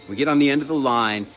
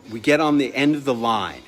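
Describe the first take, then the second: No difference in how they are said.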